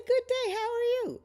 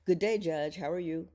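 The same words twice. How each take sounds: First: High-pitched, loud hello back; cheery greeting. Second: Lightly acted polite greeting; a hint of a friendly customer; greeting fan. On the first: Retold or imitated. Judge answering a fan in the checkout line, cheery greeting. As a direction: sing out a bright retold reply. Voices her own cheery reply. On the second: Shopper greeting the judge in line, lightly acted.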